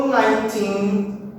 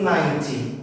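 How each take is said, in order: First: "nineteen" with a long final syllable; nine-TEEN, end-stressed. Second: "ninety" with a strong first syllable; NINE-ty, front-stressed. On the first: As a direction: give the "teen" in "nineteen" full weight. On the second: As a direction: hit the start of "ninety", short ending. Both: Shown as a demonstration. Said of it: "sempre lembrando de diferenciar qual que é a stressed".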